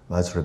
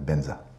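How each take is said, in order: First: It begins with a v sound and has j. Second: It begins with a b sound and has z. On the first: "you can't say Vajra in Tibetan" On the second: "Vajra becomes Benza"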